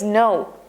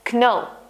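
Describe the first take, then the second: First: The K is silent at the start. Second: The K is pronounced at the start. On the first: The speaker calls it right. "The correct way is no because the K is silent" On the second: The speaker calls it wrong. "Pronouncing silent letters"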